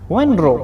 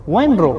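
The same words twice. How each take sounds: The two takes are said the same way.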